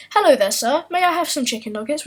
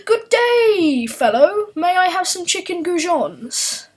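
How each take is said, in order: First: Said in the usual way. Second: Much higher, louder posh English greeting; exaggerated posh British accent. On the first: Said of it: "such as". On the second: Shown as a demonstration. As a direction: overdo the upper-class Brit, squeaky and proud. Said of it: "would be".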